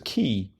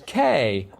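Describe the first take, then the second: First: The vowel sounds like the word key. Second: The vowel sounds like the letter name A. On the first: The speaker calls it right. "it's to be pronounced as key" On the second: The speaker calls it wrong. "yelling, pronounce me as K"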